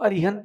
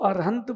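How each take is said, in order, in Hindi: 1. दूसरे अक्षर में 'i' स्वर है। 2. दूसरे अक्षर में 'a' स्वर है। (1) "जब ई स्वर देते हैं तो अरिहंत बनता है" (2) "जब आ स्वर देते हैं तो वो अरहंत बनता है"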